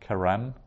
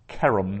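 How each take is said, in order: First: The stress is on the last syllable. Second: The stress is on the first syllable. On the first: The speaker calls it wrong. "not keram" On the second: The speaker calls it right. "that's accenting the ke"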